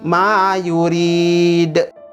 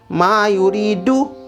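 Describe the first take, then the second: First: The phrase ends with a bounced final consonant. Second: The phrase ends with an added vowel sound. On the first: The speaker calls it right. "maka dibaca dengan ma yurid" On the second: The speaker calls it wrong. "tidak boleh dibaca mayuridu"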